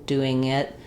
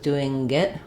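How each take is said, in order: First: The ng blends smoothly into the next word. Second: An extra g sound follows the ng. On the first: The speaker calls it right. "So the air should just be in the nose" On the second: The speaker calls it wrong. "with an extra g or k sound"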